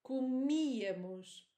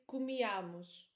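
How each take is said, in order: First: The stress falls on the 'mi' syllable. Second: The stress falls away from the 'mi' syllable. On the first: The speaker calls it right. "Listen to me" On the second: The speaker calls it wrong. "Many students say comíamos. Please, it's not like that"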